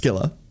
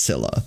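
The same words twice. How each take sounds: First: The name begins with a hard K sound. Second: The name begins with a soft S sound. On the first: This is the original pronunciation. "Wrong, but close. But yeah, that's the one. Yeah, it's Scylla" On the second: This is the common modern pronunciation. "nowadays with the character being adapted into modern mythology everywhere, like it's Scylla"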